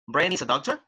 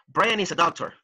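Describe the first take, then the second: First: The voice rises at the end. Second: The voice falls at the end. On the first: It is a question. The speaker calls it wrong. "The second one sounds like a question" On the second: It is a statement. The speaker calls it right. "the first one sounds like a sentence"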